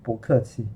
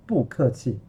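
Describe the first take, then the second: First: 不客气 with 不 lifted to a rising second tone; changed tone on 不. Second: 不客气 with 不 kept in a falling fourth tone; awkward unchanged falling tone on the 不 of 不客气; wrong tone on 不. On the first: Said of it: "So we change the tone, become". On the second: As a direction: say 不客气 without the tone change on 不. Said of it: "saying it with awkward, very funny". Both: Shown as a demonstration.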